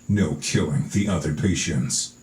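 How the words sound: It is read in a growly trailer voice.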